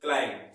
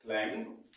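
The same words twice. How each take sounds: First: क्लाइंब said "klaim", falling; firm falling क्लाइंब with silent b; correct pronunciation. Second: क्लाइंब in its written form, rising at the end. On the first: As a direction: end क्लाइंब on m, no b. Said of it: "इसका pronounce क्या बोलेंगे". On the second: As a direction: say क्लाइंब lower, with a closing upturn. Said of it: "हम लिखेंगे तो क्लाइंब". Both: Shown as a demonstration.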